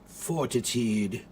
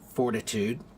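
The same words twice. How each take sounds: First: It is said in a British accent. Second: It is said in an American accent.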